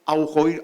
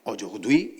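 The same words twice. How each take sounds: First: "aujourd'hui" read letter by letter in Spanish, au-jour-d-hui; spelling pronunciation. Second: "aujourd'hui" said the French way, o-zhur-dwi; French pronunciation. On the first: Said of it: "apóstrofe H intercalada uy". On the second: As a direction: give "aujourd'hui" its real French sound. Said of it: "ya sabes cómo lo pones". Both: Shown as a demonstration.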